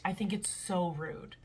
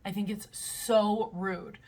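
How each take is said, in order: First: Said in the usual way. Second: "so" stretched and leaned on, slower; "so" drawn out with emphasis; stress on so. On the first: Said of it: "repeated with stress". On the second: Real, not acted. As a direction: drag out the "so". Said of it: "repeated with stress on so".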